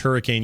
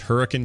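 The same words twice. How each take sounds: First: The last syllable sounds like 'cane'. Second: The last syllable sounds like 'cun'. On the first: The speaker calls it wrong. "Everyone thinks it's Hurricane, Utah, but it's not" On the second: The speaker calls it right. "It's Hurricane, Utah"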